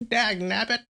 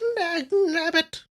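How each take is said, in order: First: It is a strained old man's voice. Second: It is an old lady's voice.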